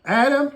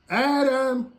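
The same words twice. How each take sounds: First: Loud high call; God calling for Adam in the evening. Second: Loud high call, held; God calling for hidden Adam; calling again. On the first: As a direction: call out across the garden. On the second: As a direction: call out, searching. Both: Acted. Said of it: "here comes God ... and he says".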